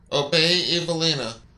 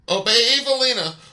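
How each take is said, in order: First: It is said with more force. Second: It is shouted loudly.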